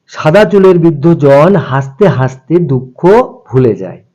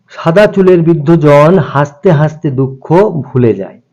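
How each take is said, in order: Both takes have the same delivery.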